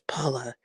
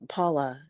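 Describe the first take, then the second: First: It is said imitating Easy's voice. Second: It is said in her normal voice.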